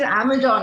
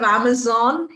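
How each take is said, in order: First: The word is said without a z sound. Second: The word has a clear z sound. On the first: The speaker calls it wrong. "he can't say the Z sound. So he says Amazon" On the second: The speaker calls it right. "instead of Amazon"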